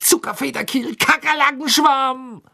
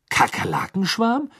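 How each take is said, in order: First: Angry shout. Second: Very high rising, baffled question; puzzled. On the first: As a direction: yell it while hopping in pain. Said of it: "schrie er zornig". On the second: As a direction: say it stunned and unsure. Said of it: "sagte er verdutzt". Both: Acted.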